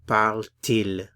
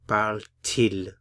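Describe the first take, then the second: First: A t sound separates the two vowels. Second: The same.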